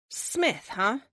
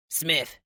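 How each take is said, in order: First: Smith pitched high, amused doubt; skeptical echo. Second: Said in the usual way. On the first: Acted. Amelia doubts the agent's generic name, amused and skeptical. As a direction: tease the name back at him.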